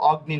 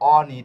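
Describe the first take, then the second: First: The g is pronounced as a hard g sound. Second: The g is silent, giving a palatal n sound. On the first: The speaker calls it wrong. "এটা কিন্তু অগ্নি না" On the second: The speaker calls it right. "এটার উচ্চারণ কি হয়েছে অনি"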